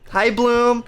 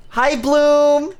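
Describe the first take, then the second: First: Said in the usual way. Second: Higher, brighter hello with a rising end; cheery greeting. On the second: Real, not acted. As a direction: sing out the name happily. Greeting chat viewer.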